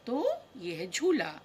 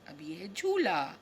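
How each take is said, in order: First: Said in the usual way. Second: Breathy whispered naming, no voice; voiceless whisper. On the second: Shown as a demonstration. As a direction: hush it like a secret for the kids. Whispering the picture name.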